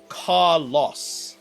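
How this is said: It is said the British way, ending like 'loss'. The speaker calls it wrong. "they say Carlos, uh, as if it's like a loss"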